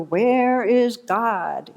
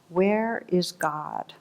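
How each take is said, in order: First: It is said with the voice raised most. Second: It is said sternly at a moderate volume.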